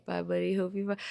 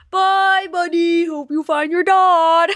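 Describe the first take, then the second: First: Said in the usual way. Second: Loud, high, slow silly goodbye; high, loud, drawn-out mock farewell; hammed-up farewell. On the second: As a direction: belt out a comic send-off. Sung-out goodbye.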